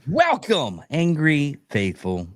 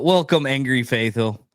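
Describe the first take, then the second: First: It is said with more energy. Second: It is said with little energy.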